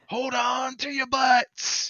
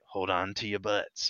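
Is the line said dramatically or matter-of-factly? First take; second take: dramatically; matter-of-factly. First: It is said dramatically, with exaggerated emphasis. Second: It is said flatly and matter-of-factly.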